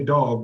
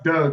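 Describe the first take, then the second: First: The vowel has a standard accent. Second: The vowel has a Baltimore accent. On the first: This is how the name is said now. "I say Dog now" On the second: This is how the name used to be said. "I don't say Doug anymore"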